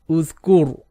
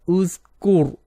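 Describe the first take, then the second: No difference in how they are said.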